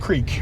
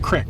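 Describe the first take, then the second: First: The vowel is a long 'ee' sound. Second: The vowel is a short 'i' sound. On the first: This is how the speaker usually says it. "I always call it creek" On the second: This is how some other people say it. "as some people call them"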